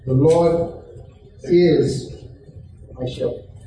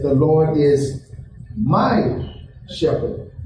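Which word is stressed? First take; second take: is; my. First: The word "is" is stressed. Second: The word "my" is stressed.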